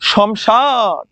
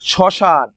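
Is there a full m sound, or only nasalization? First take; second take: full m; nasalization. First: A full m sound follows the first consonant. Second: No m sound, only nasal coloring on the vowel. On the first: The speaker calls it wrong. "শ্মশান আমরা কি বলি? শমশান। শমশান কিন্তু হবে না রে" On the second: The speaker calls it right. "মফলার আনুনাসিক উচ্চারিত হয়"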